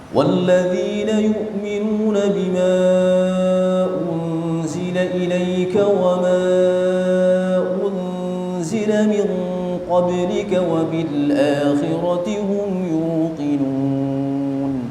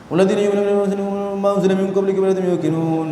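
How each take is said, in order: First: The verse is recited at a moderate pace. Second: The verse is recited at a very fast pace. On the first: This reading speed is permitted. "masih masuk tingkatan tadwir ya. Cuman yang agak cepat" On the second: This reading speed is sinful. "Yang lebih cepat lagi ada namanya ma'thum"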